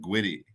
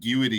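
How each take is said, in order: First: The 'gu' and 'i' merge into one syllable. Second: The 'gu' and 'i' are two separate syllables. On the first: The speaker calls it wrong. "you were saying gwitty" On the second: The speaker calls it right. "instead of guity"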